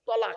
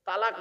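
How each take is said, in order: First: The word starts with a heavy, rounded 'to' sound. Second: The word starts with a plain 'ta' sound. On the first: The word means divorce. The speaker calls it right. "শব্দটা কি? তলাক।" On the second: The word means joining together. The speaker calls it wrong. "তালাক নয়, শব্দটা তালাক বলবেন না"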